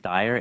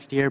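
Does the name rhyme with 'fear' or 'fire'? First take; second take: fire; fear. First: The vowel sounds like the one in 'fire'. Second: The vowel sounds like the one in 'fear'. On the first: The speaker calls it right. "the name is Steyer" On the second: The speaker calls it wrong. "It looks like Steer"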